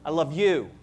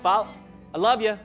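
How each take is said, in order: First: The last word is said in full as 'you'. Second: The last word is reduced to 'ya'. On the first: The feeling is sincere and serious. The speaker calls it right. "I love you is formal" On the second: The feeling is casual and not really meant. The speaker calls it wrong. "I love ya is, I kind of like ya"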